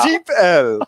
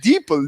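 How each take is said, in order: First: It is said as 'deep' plus the letter L. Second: It is said as one word, 'deeple'. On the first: The speaker calls it right. "Is that how that's pronounced?" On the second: The speaker calls it wrong. "I was saying deeple"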